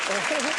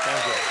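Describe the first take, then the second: No difference in how they are said.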